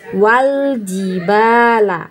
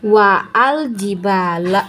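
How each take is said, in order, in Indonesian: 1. Huruf 'a' dihilangkan dan 'wal' dibaca menyambung. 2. 'Al' dibaca sebagai suku kata yang terpisah. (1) "kita bacanya langsung masuk ke huruf lamnya" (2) "maka kita membacanya bukan wa al-jibala"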